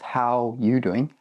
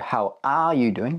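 First: The word 'are' is dropped. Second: The word 'are' is clearly said. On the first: "That one's a little bit shortened. ... just how you doing?" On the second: "instead of how are you doing"

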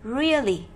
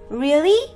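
First: The word is said plainly, with no surprise. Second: The word rises strongly, sounding very surprised. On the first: The word is simply being read. "Đó là một từ khi đọc bình thường" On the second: The speaker is surprised and checks if it's true. "chúng ta hỏi với vẻ ngạc nhiên, thì chúng ta sẽ lên giọng cho từ đó"

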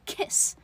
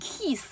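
First: The vowel is short and relaxed. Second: The vowel is long and stretched. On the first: The speaker calls it right. "它是个短元音kiss" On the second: The speaker calls it wrong. "你这太僵了，你把它念成那个旁边有一个冒号啊"

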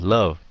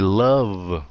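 First: The word is said quickly. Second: The word is said slowly. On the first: "còn nếu nó nhanh" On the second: "Nếu nó chậm thì"

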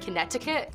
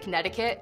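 First: The middle T is a clear T. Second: The middle T sounds like a D.

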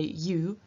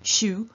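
First: It begins with a voiced y sound. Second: It begins with a voiceless sh-like sound. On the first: "First time I say you" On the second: "second time I say something closer to shu"

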